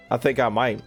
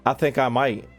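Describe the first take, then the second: No difference in how they are said.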